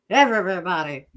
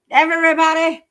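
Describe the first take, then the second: First: Said in the usual way. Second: Loud high emphatic shout. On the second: Real, not acted. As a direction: yell the word out. Emphatic repeat.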